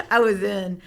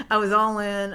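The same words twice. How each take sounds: First: Laughing and louder. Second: All in, with all pushed out and louder; stress on all. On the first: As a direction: laugh it out, then say it. Laughing, all in on school. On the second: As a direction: hit the word all. Emphatic restatement after the laugh. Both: Real, not acted.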